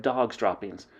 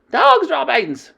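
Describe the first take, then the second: First: Said in the usual way. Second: High, loud, slow Dog's droppings!; witches shouting. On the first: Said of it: "the dreaded cry of". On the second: Acted. The coven shouting about the smell, disgusted. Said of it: "they shouted".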